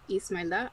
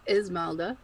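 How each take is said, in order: First: The name is said with a Spanish accent. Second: The name is said with an American accent. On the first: "pronounced the Spanish way" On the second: "the more Americanized way"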